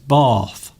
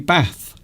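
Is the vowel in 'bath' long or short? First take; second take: long; short. First: The vowel is a long 'ar' sound. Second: The vowel is a short flat 'a'. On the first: It sounds posh. "Steve says bath. people would definitely say you're posh" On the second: It marks a Staffordshire accent. "So I say bath. my accent is is sort of Stafford"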